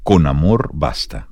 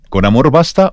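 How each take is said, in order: First: The voice falls at the end, like a statement. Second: The voice rises at the end, like a question. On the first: It asserts that love is enough. "como una afirmación" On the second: It asks whether love is enough. "como una pregunta"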